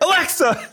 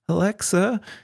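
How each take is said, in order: First: It is said loudly and commandingly. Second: It is said quietly and timidly.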